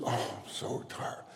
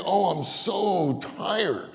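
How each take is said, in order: First: Soft, slow tired mumble; silent weary complaint. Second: High, drawn-out tired groan of words; weary complaint out loud. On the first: Preacher acts churchgoer's private thought in meeting, weary undertone. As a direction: grumble it under your breath. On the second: Preacher mimics tired churchgoer in a meeting, weary complaint. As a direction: complain aloud, stretching it slowly. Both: Acted. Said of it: "You don't say it out loud".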